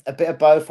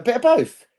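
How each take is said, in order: First: Said in the usual way. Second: Higher, lilting repeat; high-pitched playful answer; raised playful voice. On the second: Pretend.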